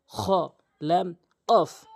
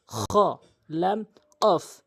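No difference in how they are said.

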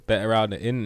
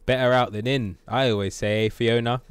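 First: Said in the usual way. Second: Loud, clearly projected character line; Shrek. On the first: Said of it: "didn't come out as clearly as it could have". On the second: Acted. Gamer redoing Shrek's burp line, loud impression. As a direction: belt out the catchphrase clearly. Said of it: "It could have been a lot clearer".

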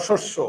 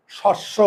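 First: "শস্য" with closed o, shosh-sho; correct pronunciation demo. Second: "শস্য" with open অ in the first syllable; wrong pronunciation demo. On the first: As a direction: round both vowels of "শস্য" to ও. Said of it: "না শস্য?". ("শস্য"-এ ও-কার দিয়ে উচ্চারণ) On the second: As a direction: open the jaw on "শস্য", shawsh-sho. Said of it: "আমরা এটাকে উচ্চারণ করি কি?". ("শস্য"-এ খোলা অ উচ্চারণ) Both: Shown as a demonstration.

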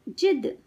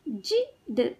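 First: Said in the usual way. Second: जिद with a gap before द; sound by sound. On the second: Shown as a demonstration. Teacher teaching kids to read, sounds apart. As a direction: break जिद into जि - द. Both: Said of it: "शब्द पढ़ना सिखाऊंगी".

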